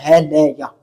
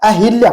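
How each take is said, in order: First: The second syllable has an 'a' vowel. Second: The second syllable has an 'i' vowel. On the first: The speaker calls it right. "ये इसका शुद्ध रूप होता है" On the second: The speaker calls it wrong. "अहिल्या नहीं होता"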